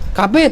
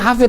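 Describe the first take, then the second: First: The name begins with a k sound. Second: The name begins with an h sound.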